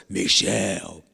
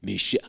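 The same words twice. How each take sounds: First: Dramatic silly call. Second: Said in the usual way. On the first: Shown as a demonstration. Priest showing how he pranked her, dramatic and silly. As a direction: draw the name out low, being silly. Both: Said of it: "I was being dramatic".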